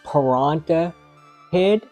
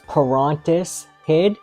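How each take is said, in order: First: The name has no 's' sound before 'Head'. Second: The name has an 's' sound before 'Head'. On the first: The speaker calls it wrong. "I always thought his name was" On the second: The speaker calls it right. "but it is"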